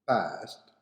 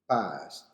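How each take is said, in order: First: It is said with an American accent. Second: The same.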